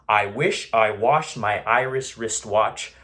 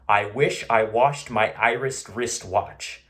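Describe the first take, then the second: No difference in how they are said.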